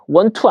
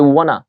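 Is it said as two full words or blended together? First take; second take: two words; blended. First: Both words are said fully and separately. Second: The two words blend into one reduced form. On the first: "want to도 아니죠" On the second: "이런 식으로 자꾸 어때요? 변하죠"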